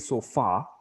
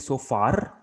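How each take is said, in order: First: The R sound is soft and light. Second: The R sound is hard and strong. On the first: The speaker calls it right. "Make the R soft" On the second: The speaker calls it wrong. "Don't say so far"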